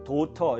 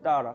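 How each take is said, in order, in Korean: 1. 한국식으로 글자대로 읽은 'doteo'처럼 발음됩니다. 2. 미국식 'dah-ra'처럼, 탄설음(flap)으로 발음됩니다. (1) "우리나라 사람은 도터 이렇게 하잖아요" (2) "미국 사람들은 그렇게 안 하잖아요. 예? 따라 이렇게 하잖아요"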